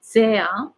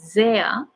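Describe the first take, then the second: No difference in how they are said.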